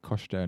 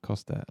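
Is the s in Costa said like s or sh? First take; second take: sh; s. First: The s in the middle sounds like sh. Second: The s in the middle sounds like s. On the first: The speaker calls it right. "I was like doing the shh thing because that's all the Portuguese" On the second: The speaker calls it wrong. "not Costa, like the coffee brand"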